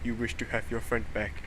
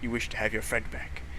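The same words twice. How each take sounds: First: It is said in a robotic voice. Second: It is said in a normal voice.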